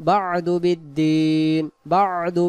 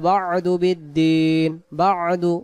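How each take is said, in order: Both takes have the same delivery.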